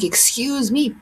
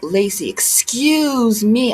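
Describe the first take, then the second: First: Retorting to the commenter, offended; indignant "excuse me" back. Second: Slow, drawn-out snooty "excuse me"; imitating a rude commenter, drawn out; mock commenter "excuse me". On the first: Retold or imitated. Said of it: "I was like". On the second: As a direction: stretch out a condescending "excuse me". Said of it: "one guy was like".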